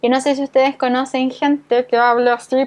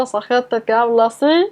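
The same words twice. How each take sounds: First: Said in the usual way. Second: A lightly done throaty, swallowed voice pushed back in the throat; hint of a voice that sits back in the throat, not at the lips. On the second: Shown as a demonstration. Teacher mimicking people with a throaty voice for students. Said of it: "Eso se llama voz engolada".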